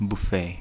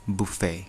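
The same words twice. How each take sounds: Both takes have the same delivery.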